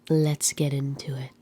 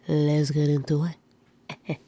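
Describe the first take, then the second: First: It is said in the speaker's ordinary accent. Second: It is said in a put-on French accent.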